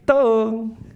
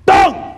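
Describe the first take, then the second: First: The word is said softly in a gentle tone. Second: The word is said sharply in an angry tone. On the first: "katanya sama tapi hasilnya berbeda" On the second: "Langsung tegang semua gitu. Oh ini ada yang marah"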